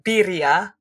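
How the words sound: It is said with a Spanish accent. "pronounced birria for people that actually speak Spanish well"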